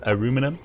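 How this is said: It is said the American way. "the U United States is the only people who say aluminum"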